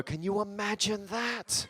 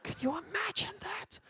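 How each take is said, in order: First: Slow, soft, wistful voice; dreamy Brit. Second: Much higher, soft and slow falsetto; swooning Brit. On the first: Comic imitating a dreaming Brit, slow and soft. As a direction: sigh it out like a daydream. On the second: Comic imitating a swooning Brit, high falsetto and slow. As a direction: float it way up in a swoon. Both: Retold or imitated. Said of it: "People go".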